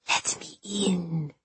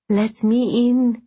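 First: Slow, much softer eerie hiss; hissing ghost. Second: High, slow, gasping plea; gasping ghost. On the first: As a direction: hiss it from beyond the window. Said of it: "hissed the thing". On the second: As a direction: moan it like a freezing ghost. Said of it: "it gasped". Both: Acted.

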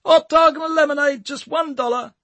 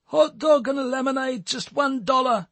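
First: High, louder hawker's cry; more forceful sales call. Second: High pitched vendor call through a megaphone; megaphone sales call. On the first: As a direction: push the call out harder. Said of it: "Tommy repeated more forcefully". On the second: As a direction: hawk it into a megaphone, self-conscious. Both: A narrator's reading.

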